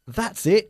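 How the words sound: It sounds warm and encouraging. The listener is doing well and should continue. "Cuando estás animando a alguien"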